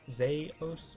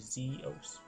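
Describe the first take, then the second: First: The first vowel is an A sound. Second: The first vowel is an E sound. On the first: "with an A" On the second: "or an E sound"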